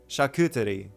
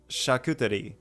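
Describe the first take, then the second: First: The word is said with a French accent. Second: The word is said with a French accent.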